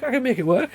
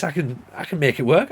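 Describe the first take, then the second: First: Playful squeaky falsetto repeat; mock high voice. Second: Said in the usual way. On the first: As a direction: pitch it way up, teasing.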